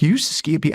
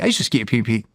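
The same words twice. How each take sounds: First: Higher-pitched, lightly incredulous question on "You used to ski at Peak"; "You" lifted in surprise; surprised echo. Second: Said in the usual way. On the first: Retold or imitated. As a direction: retell an amazed check of what was heard. Echoes friend in surprise at coincidence.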